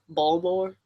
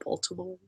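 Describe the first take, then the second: First: The middle syllable is dropped, shortening the word. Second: All three syllables are clearly pronounced. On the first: The speaker has the local Baltimore accent. "if you say Baltimore as Balmore" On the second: The speaker does not have the local Baltimore accent. "but I say Baltimore"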